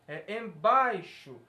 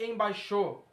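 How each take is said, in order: First: The stress falls before the last syllable. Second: The stress falls on the last syllable. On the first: The speaker calls it right. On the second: The speaker calls it wrong. "Se pegar o estresse daqui e jogar no X O, fica embaixo. A palavra não é embaixo"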